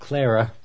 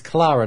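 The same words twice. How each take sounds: First: The name has an American pronunciation. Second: The name has a British pronunciation. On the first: The speaker calls it wrong. "not Clara" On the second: The speaker calls it right. "Clara's name is Clara"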